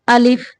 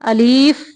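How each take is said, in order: First: The second vowel is short and quick. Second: The second vowel is stretched long. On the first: The speaker calls it right. "थोड़ा जल्दी में अलिफ" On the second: The speaker calls it wrong. "अलीफ नहीं पढ़ना"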